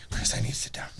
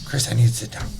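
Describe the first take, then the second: First: Breathy whisper, voice dropped right down; whispered plea. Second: Said in the usual way. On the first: Retold or imitated. Old lady begging Chris for a seat, in a whisper. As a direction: whisper it like you're about to faint. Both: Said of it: "She's just like".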